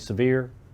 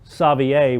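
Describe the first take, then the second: First: The name is said the way locals say it. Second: The name is said the speaker's own way. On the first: The speaker calls it wrong. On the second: The speaker calls it right.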